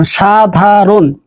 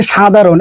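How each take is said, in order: First: সাধারণ drawn out very slowly and carefully, every sound clear; correct pronunciation. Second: সাধারণ said as the wrong example, at normal pace; wrong pronunciation. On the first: Teacher shows students the correct সাধারণ, very slowly. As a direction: spell out সাধারণ slowly as the model to copy. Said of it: "এইটা হচ্ছে তোমার শুদ্ধ উচ্চারণ". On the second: Teacher shows students the wrong সাধারণ, plainly. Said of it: "এইটা কিন্তু অশুদ্ধ উচ্চারণ". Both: Shown as a demonstration.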